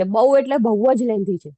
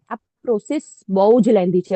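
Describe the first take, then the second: First: બહુ leaned on hard, both times; stress on બહુ. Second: Said in the usual way. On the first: Shown as a demonstration. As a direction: weigh down each બહુ to show how long it takes.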